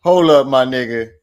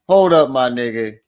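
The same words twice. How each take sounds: The two takes are said the same way.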